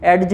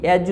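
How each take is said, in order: First: "एडज" with the d sounded before the j; mispronounced edge. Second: "एज" with no d sound before the j; silent d. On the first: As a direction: say "एडज", wrongly voicing the d. ("एडज", d की आवाज़ के साथ ग़लत उच्चारण) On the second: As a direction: say "एज", leaving the d out. ("एज", d की आवाज़ के बिना) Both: Shown as a demonstration. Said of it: "एडज नहीं करना".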